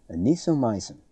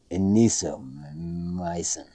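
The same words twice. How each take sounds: First: "Anisomycin" said smoothly as a-ni-so-MY-cin; corrected pronunciation. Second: "Anisomycin" sounded out slowly and haltingly, syllable by syllable; slow stumbling attempt. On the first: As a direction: say "Anisomycin" cleanly and confidently this time. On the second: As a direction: drag "Anisomycin" out as if reading it for the first time. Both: Shown as a demonstration.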